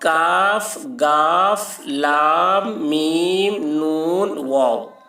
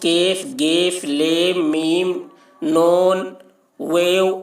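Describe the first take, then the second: First: The names use a long 'ah' vowel. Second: The names use an 'ay' vowel. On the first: This is how Urdu reads these letters. The speaker calls it right. "मारूफ पढ़ा गया है" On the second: Urdu does not read these letters this way. The speaker calls it wrong. "अगर मजहूल पढ़ते तो क्या पढ़ते"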